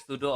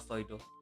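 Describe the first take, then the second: First: The first vowel sounds like 'oo'. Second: The first vowel sounds like 'oi'. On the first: "either sudo" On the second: "or soido ... It's so German"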